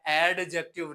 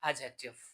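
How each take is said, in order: First: The d sound is clearly pronounced. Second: The d sound is left silent. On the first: The speaker calls it wrong. "ये एडजेक्टिव नहीं है" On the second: The speaker calls it right. "डी आता है तो वो silent होगा"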